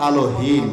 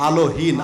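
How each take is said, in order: No difference in how they are said.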